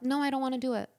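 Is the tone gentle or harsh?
gentle. It is said in a soft, gentle tone.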